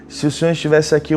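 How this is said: It is said in a reproachful, complaining tone. The speaker blames the listener for arriving too late. "num tom de quem, ah, por que, que o Senhor demorou tanto?"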